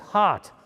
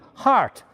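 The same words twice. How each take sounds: First: It is said in a New England accent. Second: It is said in a California English accent.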